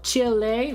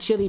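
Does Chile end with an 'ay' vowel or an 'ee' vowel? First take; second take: ay; ee. First: The final vowel sounds like 'ay'. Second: The final vowel sounds like 'ee'. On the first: It follows the Spanish pronunciation. "Because the E is pronounced like an A" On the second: It follows an anglicized pronunciation. "I might have said Chile before when I was younger"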